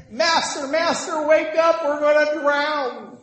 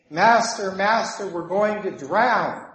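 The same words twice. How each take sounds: First: High, loud cry of terror, acted out; hammed-up frantic wail, drawing out the final word; panicked imitation. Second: Slightly alarmed cry, higher on Master; mild mock fear. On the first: Disciples waking Jesus as they drown, panicked cry. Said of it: "they're so afraid". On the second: Disciples waking Jesus in the storm, mildly alarmed. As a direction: call out with a touch of fear, drawing out the last words. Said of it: "getting more and more afraid".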